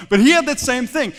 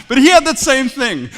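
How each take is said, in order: Both takes have the same delivery.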